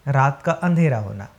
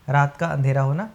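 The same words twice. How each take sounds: No difference in how they are said.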